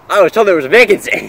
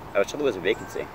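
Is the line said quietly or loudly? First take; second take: loudly; quietly. First: It is said at a very loud volume. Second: It is said at a quieter volume.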